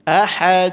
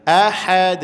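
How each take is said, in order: The two takes are said the same way.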